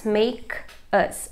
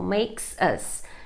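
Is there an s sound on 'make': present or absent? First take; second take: absent; present. First: The s sound at the end of make is dropped. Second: The s sound at the end of makes is pronounced. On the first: "você nem vai pronunciar that makes us, porque fica muito difícil" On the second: "Ou makes us"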